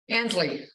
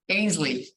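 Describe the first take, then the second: First: The first vowel does not sound like 'pain'. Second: The first vowel sounds like the one in 'pain'. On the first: The speaker calls it wrong. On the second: The speaker calls it right.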